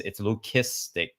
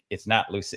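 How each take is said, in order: First: Leucistic said with a hard k, lukistik; the right take, leucistic as lu-KIS-tik; hard K sound. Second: Leuc- said with a soft c, lus; the wrong take, leuc- as lus. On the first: Correcting a friend's pronunciation, right version slowly. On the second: Correcting a friend's pronunciation, wrong version first. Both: Shown as a demonstration.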